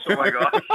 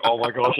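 First: High, giggling oh my gosh; laughing disbelief. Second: Said in the usual way. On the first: Retold or imitated. Host retelling his shock at Jerry, laughing and high. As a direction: let the laugh break through, pitched up.

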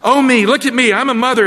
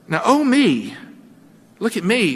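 First: Loud, high, mocking Hagar; a loud sneering slave woman taunting her mistress; contemptuous gloating. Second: Smug gloating. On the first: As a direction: crow over your rival, louder and higher. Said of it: "I imagine she said something like this". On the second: Acted. Hagar gloating over Sarai.

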